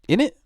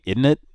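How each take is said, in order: First: It is said in a British accent, reduced. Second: It is said in a rural American accent. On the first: "I heard like a British guy say it" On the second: "was like a redneck thing"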